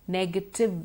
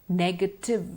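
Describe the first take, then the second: No difference in how they are said.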